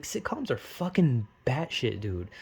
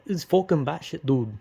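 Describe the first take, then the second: First: Weirdly drawled rant; odd slow delivery. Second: Said in the usual way. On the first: Real, not acted. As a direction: let the words come out strangely by accident. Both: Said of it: "why'd I say it like that?".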